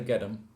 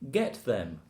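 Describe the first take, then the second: First: The word 'them' is reduced to 'em'. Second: The word 'them' is said in full.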